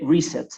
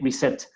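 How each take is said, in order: First: The stress is on the first syllable. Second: The stress is on the second syllable. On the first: The speaker calls it right. "ahí hablaríamos de reset también" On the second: The speaker calls it wrong. "nunca de reset"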